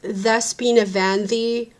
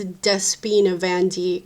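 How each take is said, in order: First: The first name begins with a soft th sound. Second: The first name begins with a hard d sound. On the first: This is how the name is really said. "it's actually pronounced Thespina Vandi" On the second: This follows the way the name is written. "but it's written as [name]"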